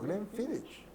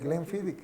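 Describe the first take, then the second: First: The name does not end with a k sound. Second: The name ends with a k sound. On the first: The speaker calls it wrong. "y me dijo" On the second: The speaker calls it right. "Yo le dije, el Glenfiddich"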